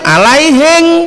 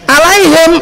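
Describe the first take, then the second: First: The word ends with an ng sound. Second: The word ends with an m sound. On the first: The speaker calls it wrong. "Orang Bugis kalau eng bilangnya en, kalau en bilangnya eng" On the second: The speaker calls it right. "kalau en bilangnya eng"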